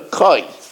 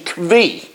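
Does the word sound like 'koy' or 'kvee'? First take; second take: koy; kvee. First: The word sounds like 'koy' with no v. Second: The word sounds like 'kvee' with a v. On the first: This is the usual way people say it. "usually people call it a koi" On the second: This is a less common way some people say it. "there is another pronunciation"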